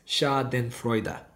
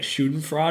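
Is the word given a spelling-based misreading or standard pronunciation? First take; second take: standard; misreading. First: The word has its standard German pronunciation. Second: The word is read naively from its spelling. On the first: The speaker calls it right. "And it's Schadenfreude" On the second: The speaker calls it wrong. "In my head, it would have said like Schadenfreude or something"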